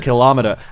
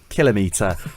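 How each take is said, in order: First: The stress is on the second syllable. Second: The stress is on the first syllable. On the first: "They put the stress on the seconds. Yeah, kilometre, as if it's a measuring instrument" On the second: "Rob and I both said kilometre"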